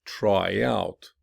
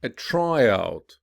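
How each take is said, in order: First: "Try out" with OUT stressed; stress on second part. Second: Noun form, lean on TRY in "a tryout"; stress on first part. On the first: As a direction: verb form, lean on OUT in "Try out". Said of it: "commonly stressed on the second". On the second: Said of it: "listen to stress pattern". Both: Shown as a demonstration.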